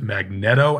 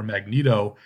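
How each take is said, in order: First: The first part sounds like the word magnet. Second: It sounds like the electrical device, not magnet. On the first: "as in magnet" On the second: "like the familiar electrical device"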